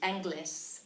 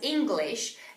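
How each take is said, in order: First: The word is said with distorted sounds. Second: The word is said in its standard form. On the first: The speaker calls it wrong. "and not as Angli, Anglis" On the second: The speaker calls it right. "you should pronounce the word English as English"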